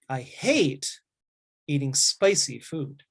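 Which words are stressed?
hate, spicy. The words hate and spicy are stressed strongly. "I put more strength on the word hate and spicy"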